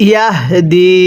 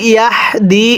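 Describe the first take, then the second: First: ইয়াহদি with the হ voiced from the throat; correct pronunciation. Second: ইয়াহদি with a flat হ and no throat sound; wrong pronunciation. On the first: Teacher showing students the right way, voiced হ. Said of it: "গলার মধ্যে অবশ্যই আওয়াজ করে পড়বেন". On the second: Teacher showing students the wrong way, weak হ. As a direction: say ইয়াহদি carelessly, the হ unvoiced in the throat. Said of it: "হাটা সহি শুদ্ধ উচ্চারণ হবে না". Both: Shown as a demonstration.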